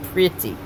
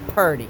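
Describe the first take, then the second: First: The word is said with a standard pronunciation. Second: The word is said with a Southern pronunciation. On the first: The speaker calls it right. "instead of pretty" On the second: The speaker calls it wrong. "I said Purdy instead of pretty"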